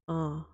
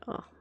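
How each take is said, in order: First: It sounds sexy and sultry. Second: It sounds disgusted.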